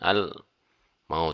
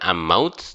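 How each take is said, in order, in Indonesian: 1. L jelas diucapkan sebelum M. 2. L melebur menjadi bunyi M yang ganda. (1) "tapi al al maut" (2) "Bukan am maut"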